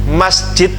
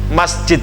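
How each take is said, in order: Both takes have the same delivery.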